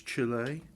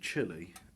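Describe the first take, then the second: First: It is said with a Spanish pronunciation. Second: It is said with an English pronunciation.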